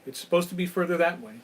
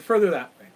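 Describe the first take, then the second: First: Said in the usual way. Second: "Further" punched louder and higher; stressed insistence. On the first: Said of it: "And he said". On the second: Retold or imitated. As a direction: lean hard on "Further". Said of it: "He said".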